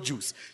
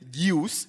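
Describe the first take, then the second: First: It is said as one plain syllable, juice. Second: An extra i sound comes before the oo vowel. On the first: The speaker calls it right. "It's just not juice" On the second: The speaker calls it wrong. "My dad says, juice, so he puts the I in front of the U"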